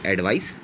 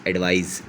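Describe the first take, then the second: First: एडवाइस ending in a voiceless s. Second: एडवाइस ending in a buzzed z. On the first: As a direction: finish एडवाइस on a sharp s sound. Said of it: "थोड़ा सा फ़र्क है". (एडवाइस के आख़िर में स की आवाज़) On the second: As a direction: finish एडवाइस on a voiced z sound. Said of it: "जेड". (एडवाइस के आख़िर में ज़ की आवाज़) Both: Shown as a demonstration.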